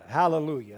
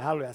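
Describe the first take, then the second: First: It is said at a normal pace. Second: It is said faster.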